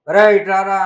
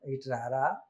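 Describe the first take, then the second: First: It sounds rude and commanding. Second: It sounds polite and respectful.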